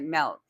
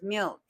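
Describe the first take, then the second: First: It is said with a Utah accent. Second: It is said with a standard accent. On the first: The speaker calls it wrong. "which words I had a Utah slang on" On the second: The speaker calls it right. "she'd be like"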